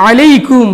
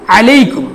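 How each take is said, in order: No difference in how they are said.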